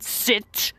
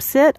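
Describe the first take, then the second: First: It is said in a changed, put-on voice. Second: It is said in an ordinary speaking voice. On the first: It is said while giving the dog a command. "changes their tone completely" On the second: It is said while talking to another person. "a person is speaking normally to another person"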